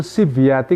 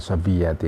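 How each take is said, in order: First: Sibyati said with i after the s, sib-ya-ti; sibyati, sib-YA-ti, not sobiyati; correct reading. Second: Sobiyati said with o after the s, so-bi-ya-ti; sobiyati, so-bi-YA-ti, four syllables; wrong reading. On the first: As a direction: say sibyati with a clear short i in the first syllable. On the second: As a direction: say sobiyati with an o as the common mistake. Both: Shown as a demonstration. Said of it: "Bacanya sibyati, ya, bukan sobiyati".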